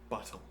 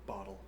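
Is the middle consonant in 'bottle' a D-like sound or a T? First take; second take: T; D-like. First: The middle consonant is a crisp, hard T. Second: The middle consonant is a soft, D-like sound. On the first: "I have a harder T" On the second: "I have like a more of a D sound"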